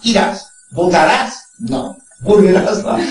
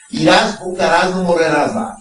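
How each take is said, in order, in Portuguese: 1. A pausa vem depois de 'não', separada de 'morrerás'. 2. A pausa vem antes de 'não', ligada a 'morrerás'.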